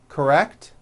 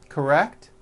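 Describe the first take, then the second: The two takes are said the same way.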